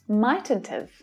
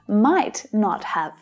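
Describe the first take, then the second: First: The words are run together in a contraction. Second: Each word is said fully and separately.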